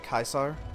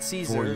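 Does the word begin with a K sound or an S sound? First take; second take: K sound; S sound. First: The word begins with a hard K sound. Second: The word begins with a soft S sound. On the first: This is the Latin way to say it. "I guess that's the Latin pronunciation of it" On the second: This is the usual English way to say it. "because that's how we say it in English"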